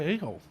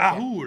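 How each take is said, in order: First: It sounds like the two words 'a hole'. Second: It sounds like one word, 'ahool'. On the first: The speaker calls it wrong. "I'm probably saying it wrong" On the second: The speaker calls it right. "I really do think it's pronounced Ahul"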